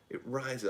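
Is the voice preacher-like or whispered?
preacher-like. The words are declaimed like a preacher. "I'm talking like a preacher"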